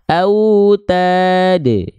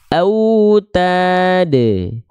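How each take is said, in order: First: The final bounce is released and fades out naturally. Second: The same.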